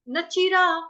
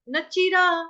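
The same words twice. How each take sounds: The two takes are said the same way.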